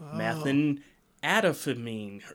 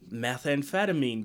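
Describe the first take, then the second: First: The word is said with an added extra syllable. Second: The word is said with its usual syllables. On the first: The speaker calls it wrong. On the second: The speaker calls it right.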